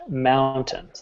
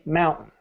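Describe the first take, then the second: First: The final syllable is clearly pronounced. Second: The final syllable is mumbled and swallowed. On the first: The speaker calls it right. "It's pronounced mountain" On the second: The speaker calls it wrong. "Most people say mountain"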